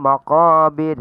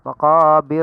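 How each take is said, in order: No difference in how they are said.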